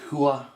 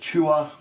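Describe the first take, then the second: First: The name begins with a breathy h sound. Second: The name begins with a hard ch sound. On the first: The speaker calls it right. "when you pronounce it in the Hebrew, it's more like Hua" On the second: The speaker calls it wrong. "it looks like it says Chua"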